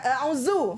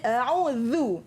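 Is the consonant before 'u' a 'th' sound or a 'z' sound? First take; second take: z; th. First: The consonant is a buzzing 'z' sound. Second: The consonant is a soft 'th' sound. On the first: The speaker calls it wrong. "bukan a'udzu. Kalau bunyi zu tu salah" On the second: The speaker calls it right. "mesti keluarkan hujung lidah, letak dekat depan gigi depan ya. So bunyi dia a'udzu"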